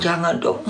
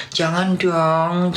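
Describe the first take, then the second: First: Said in the usual way. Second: Drawn-out high mock plea, very slow; mock pleading. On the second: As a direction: stretch it out like a whiny plea. Mocking those who go soft.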